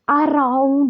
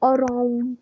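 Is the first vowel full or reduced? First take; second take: full; reduced. First: The first vowel is full and clearly stressed. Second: The first vowel is weak and unstressed. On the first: The speaker calls it wrong. "अराउंड नहीं बोलते" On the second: The speaker calls it right. "ए पे जो है वो ज्यादा जोर नहीं दिया जा रहा है, अनस्ट्रेस्ड"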